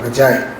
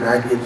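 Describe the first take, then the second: First: It is not said like the name Maggie. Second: It is said like the name Maggie. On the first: The speaker calls it right. "It's called magi" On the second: The speaker calls it wrong. "they give the name of Maggie. It's not Maggie"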